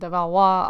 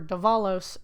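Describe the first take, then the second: First: The name is pronounced with a French-style ending. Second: The name is pronounced with an English-style ending. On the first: The speaker calls it right. "I'm actually pronouncing it right" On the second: The speaker calls it wrong. "I've been Anglicanizing that"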